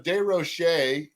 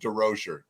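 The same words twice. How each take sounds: First: The name is said with French pronunciation. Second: The name is said with English pronunciation. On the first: "the French uh, pronunciation" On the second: "drop the S's and and you know brutalize it"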